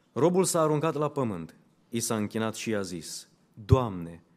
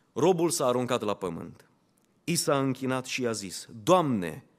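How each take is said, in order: The two takes are said the same way.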